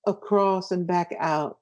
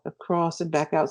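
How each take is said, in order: First: Slowed, drawn-out phrase. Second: Said in the usual way. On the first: Shown as a demonstration. Explaining the wave motion, said slowly. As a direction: trace the motion slowly with the words. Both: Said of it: "something like a wave".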